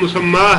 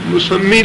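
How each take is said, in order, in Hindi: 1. इस शब्द का अंत 'ah' स्वर से होता है। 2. इस शब्द का अंत 'ee' स्वर से होता है। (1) "उसका सही जो तलफ़ुज़ है वो मुसम्मा है" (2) "मुसम्मी लफ्ज़ गलत है"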